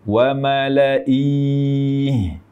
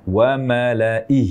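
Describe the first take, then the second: First: The final h is followed by a long i. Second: The word stops on a bare h sound. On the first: The speaker calls it wrong. "huruf ha di akhir kata dibaca dengan kasroh memanjang" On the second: The speaker calls it right. "kita sukunkan di haknya"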